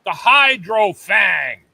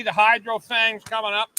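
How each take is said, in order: First: Slow, loud product reveal; announcer hype. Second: Said in the usual way. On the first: Real, not acted. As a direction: hype it like a teaser. Teasing upcoming gadget.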